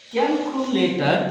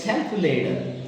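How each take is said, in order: First: "calculator" with no puff of air on the first C; unaspirated K. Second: "calculator" with a puff of air on the first C; aspirated K. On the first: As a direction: say "calculator" with a hard, dry K sound. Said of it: "It's not". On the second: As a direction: say "calculator" with an airy K at the start. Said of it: "maintain aspiration exactly". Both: Shown as a demonstration.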